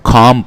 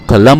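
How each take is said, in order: First: The L sound is silent, not pronounced. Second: The L sound is pronounced in the middle. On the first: The speaker calls it right. "इसको खाम पढ़ेंगे" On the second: The speaker calls it wrong. "इसको कलम नहीं पढ़ेंगे"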